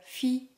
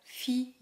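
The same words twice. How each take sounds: Both takes have the same delivery.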